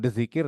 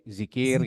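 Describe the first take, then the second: First: The word begins with a 'dz' sound. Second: The word begins with a plain 'z' sound. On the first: The speaker calls it wrong. "bukan dzikir" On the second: The speaker calls it right. "tapi zikir"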